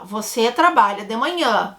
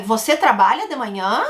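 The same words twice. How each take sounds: First: "Você trabalha de manhã" with a falling, statement ending; entonação de afirmação. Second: "Você trabalha de manhã" with a rising question ending; entonação de pergunta. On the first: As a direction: state it, letting "manhã" drop at the end. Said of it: "entonação de afirmação". ("Você trabalha de manhã" afirmando, com final descendente) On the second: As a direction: ask it, lifting "manhã" at the end. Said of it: "pra fazer pergunta". ("Você trabalha de manhã" perguntando, com final ascendente) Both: Shown as a demonstration.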